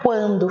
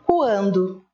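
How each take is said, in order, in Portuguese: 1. A palavra é dita rapidamente, emendada. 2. A palavra é dita devagar, com as sílabas separadas. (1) "fica mais rápido" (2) "e não quando"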